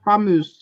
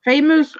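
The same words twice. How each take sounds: First: "Famous" said as fah-MOOZ; alternative pronunciation. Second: Said in the usual way. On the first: Shown as a demonstration. Co-host asking who said the name right, alternative pronunciation. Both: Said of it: "Who was right?".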